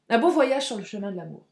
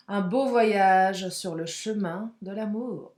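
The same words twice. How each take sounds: First: Said in the usual way. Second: Poetic. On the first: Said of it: "ça pourrait être un titre". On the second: Shown as a demonstration. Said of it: "je suis poétesse aujourd'hui".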